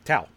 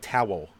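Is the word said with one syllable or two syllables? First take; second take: one syllable; two syllables. First: Philly accent, said as a single syllable. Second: Standard accent, said as two syllables.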